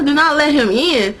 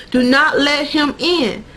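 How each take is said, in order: First: Higher-pitched, baffled repeat; puzzled echo. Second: Slow, deliberate, higher-pitched acted command; solemn warning. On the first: Retold or imitated. Sookie questions the lady's warning, puzzled. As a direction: echo it back as if confused. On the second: Lady in the coma dream warns Sookie, solemn warning. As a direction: warn her slowly, word by word.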